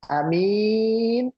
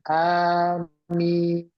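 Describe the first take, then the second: First: The second vowel is long. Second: Both vowels are long. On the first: A trustworthy person. "yang panjang minnya, a-nya pendek" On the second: Please grant it, O God. "A-nya panjang, mimnya panjang"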